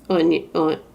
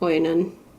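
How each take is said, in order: First: The name sounds like the word onion. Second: The name starts with an oy sound. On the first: The speaker calls it wrong. "I always pronounce that Onion" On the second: The speaker calls it right. "but I think it's Oin- Oinon"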